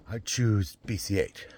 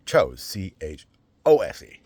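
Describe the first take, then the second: First: Drawn-out "choose", the wrong tense; wrong word choose. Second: "chose" with a long oh, spelled out slowly; "chose" then C H O S E letter by letter; correct word chose. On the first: Reading the announcement, slowly: "choose" with oo. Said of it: "the grammar was wrong". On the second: Correcting his grammar for viewers: slow spelled "chose". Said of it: "It should have been". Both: Shown as a demonstration.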